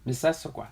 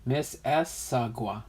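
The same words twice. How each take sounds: First: "Miss Issaquah" run together quickly as one word; quick, joined-up "Miss Issaquah"; said fast. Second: "Miss Issaquah" slowly, syllable by syllable; careful, separated "Miss ... Issaquah"; broken down slowly. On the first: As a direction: rattle off "Miss Issaquah" without breaks. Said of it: "say that really fast". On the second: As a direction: sound out each part of "Miss Issaquah". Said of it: "you gotta break it down". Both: Shown as a demonstration.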